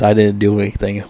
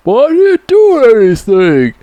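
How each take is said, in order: First: Said in the usual way. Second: High, whining and loud; whiny high Rambo. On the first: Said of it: "With that voice and shit". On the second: Retold or imitated. Rambo pleads with cops, high whiny voice. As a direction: imitate Rambo pleading like a kid. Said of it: "Stallone's character's like".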